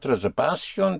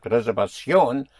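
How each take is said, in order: First: Reservación as re-ser-VA-syon, stress on VA; the rejected reservación, misstressed on VA; wrong penultimate stress. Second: Reservación as re-ser-va-SYON, last syllable punched; corrected reservación, accent on the O; stress on the ending. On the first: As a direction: push the va of reservación. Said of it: "But it is not reservación". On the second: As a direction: hit the final ón of reservación. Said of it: "because you hit the ending". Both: Shown as a demonstration.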